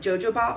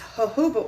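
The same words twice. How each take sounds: First: The word begins with a J sound. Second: The word begins with an H sound. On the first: The speaker calls it wrong. "I used to call it jojoba oil because I didn't know that the J's were pronounced like H's" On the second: The speaker calls it right. "the J's were pronounced like H's. So it's jojoba oil"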